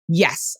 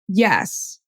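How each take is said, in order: First: The yes sounds clear and sure. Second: The yes sounds unsure and lukewarm. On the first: The person truly wants this. The speaker calls it right. "her yes was so clear" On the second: The person is not really convinced. The speaker calls it wrong. "the second one was kind of like, I think, yeah"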